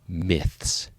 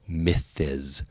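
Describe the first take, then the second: First: The ending is a plain S sound. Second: The ending is not a plain S sound. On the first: The speaker calls it right. "that's a straight S sound" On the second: The speaker calls it wrong. "try to apply the first rule to this one"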